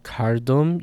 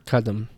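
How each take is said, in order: First: The r sound is pronounced before the d. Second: The r sound is dropped before the d. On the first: "instead of kardum" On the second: "R before stops like that will get lost"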